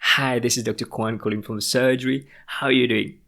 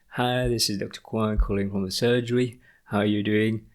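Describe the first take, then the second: First: It is said loudly with high, lively energy. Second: It is said quietly with low, flat energy. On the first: The caller seems interested, friendly and confident. The speaker calls it right. "bring the energy level higher... with higher volume" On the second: The caller seems unenthusiastic and uninterested. The speaker calls it wrong. "it doesn't bring that positive energy, no enthusiasm"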